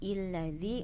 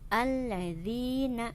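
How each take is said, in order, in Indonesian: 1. Kata ini diawali dengan vokal i. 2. Kata ini diawali dengan vokal a. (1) "bukan illadzi" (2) "Dibaca harokatnya fathah"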